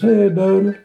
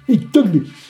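First: It is said in a Southern accent. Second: It is said in a New York accent.

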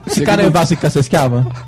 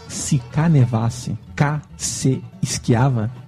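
First: It is said at normal speed. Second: It is said slowly.

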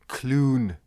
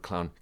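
First: The vowel is an 'oo' sound. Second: The vowel is the usual 'ow' sound. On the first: "she pronounces the word clown, Clune" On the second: "the word clown"

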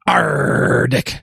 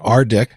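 First: It is said in a growling pirate voice. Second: It is said in a plain, ordinary voice. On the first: "if we want to throw a pirate spin on it" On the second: "Dan suggested I pronounce it RDIC"

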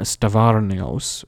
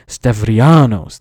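First: The name is said as Stavarnios. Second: The name is said as Stavrianos. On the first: The speaker calls it wrong. "I probably mispronounced his name horribly" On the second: The speaker calls it right. "that's how you say it"

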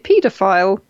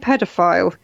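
First: It uses the pronunciation heard locally. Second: It uses the pronunciation not heard locally. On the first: This is how it is said in this country. The speaker calls it right. "We say paedophile" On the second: This is how it is said in another country. The speaker calls it wrong. "We don't say pedophile in this country"

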